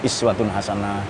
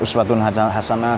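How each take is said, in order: First: The first word begins with i. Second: The first word begins with u. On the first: "saya baca iswatun hasanah" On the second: "kemarin-kemarin saya baca uswatun hasanah"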